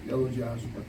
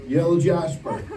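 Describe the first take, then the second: First: Said in the usual way. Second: "Yellow jasper" said up and louder, stress on "Yellow"; emphatic correction. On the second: Real, not acted. Recalling the stone's name for the campers, emphatic. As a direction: land "Yellow" firmly as the right answer. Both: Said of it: "what do you call it?".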